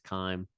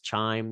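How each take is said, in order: First: The word begins with a 'k' sound. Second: The word begins with a 'ch' sound. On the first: The speaker calls it right. "its correct pronunciation is chyme" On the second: The speaker calls it wrong. "Some people pronounce this chime because that is how it's spelled"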